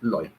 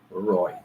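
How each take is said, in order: First: The word begins with an L sound. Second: The word begins with an R sound. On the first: "they will call it Loy" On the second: "it is Roy"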